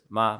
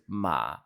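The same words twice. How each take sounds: First: The syllable is said with the first tone. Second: The syllable is said with the third tone. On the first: It means mother. "mother is ma ... It's like the first tone" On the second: It means horse. "horse is ma, which is the third tone"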